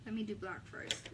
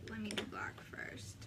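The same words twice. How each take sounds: First: Said in the usual way. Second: Whispered under the breath to herself. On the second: Real, not acted. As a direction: murmure à mi-voix, presque chuchoté. Repeats line, then whispers.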